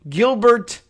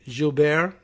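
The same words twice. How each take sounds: First: The name is pronounced the English way. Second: The name is pronounced the French way. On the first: "because we speak English, we would say" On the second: "Maybe if you were, what, French, say, you would say maybe"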